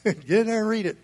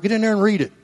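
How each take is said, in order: First: Laughing repeat. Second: Said in the usual way. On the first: Shown as a demonstration. Pastor chuckling as he repeats his dare to the congregation. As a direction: toss it off with a laugh.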